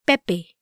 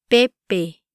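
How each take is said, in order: First: Said in the usual way. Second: "Pepe" a little slower, syllables separated; "Pepe" in two measured syllables; careful pronunciation demo. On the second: Shown as a demonstration. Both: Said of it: "try pronouncing these words".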